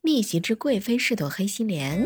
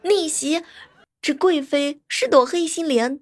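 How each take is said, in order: First: It is said in a plain, serious way. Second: It is said with exaggerated dramatic feeling.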